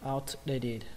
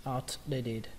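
Both takes have the same delivery.

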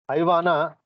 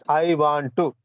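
First: "Want to" is reduced to one blended syllable. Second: "Want to" is said as two full words. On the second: "which means I want to"

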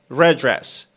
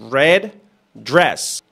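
First: The d sounds merge into one word. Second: Both d sounds are said, with a pause. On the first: The speaker calls it right. "como una sola palabra" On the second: The speaker calls it wrong. "El nativo no te va a hacer esa pausa"

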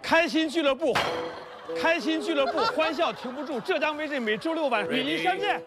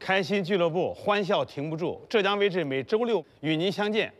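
First: It is said with high, passionate energy. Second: It is said in a calm, plain way.

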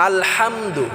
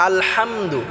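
The two takes are said the same way.

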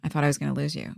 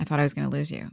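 First: 'Going to' is reduced to 'gonna'. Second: The same.

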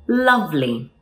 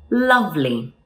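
Both takes have the same delivery.

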